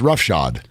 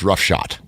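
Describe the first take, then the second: First: The word ends with a D sound. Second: The word ends with a T sound. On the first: The speaker calls it right. "it's roughshod with a D" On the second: The speaker calls it wrong. "People think it's roughshod"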